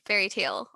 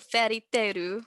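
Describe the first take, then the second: First: The name is said with English pronunciation. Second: The name is said with Japanese pronunciation.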